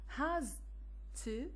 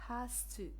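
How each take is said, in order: First: The consonant before 'to' is a voiced z. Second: The consonant before 'to' is a voiceless s.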